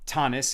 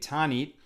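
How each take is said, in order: First: The word ends with an s sound. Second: The word ends with a t sound.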